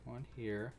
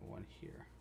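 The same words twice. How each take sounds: First: Said in the usual way. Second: Whispered count under the breath. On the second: Real, not acted. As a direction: whisper it to yourself. Counting stitches twice.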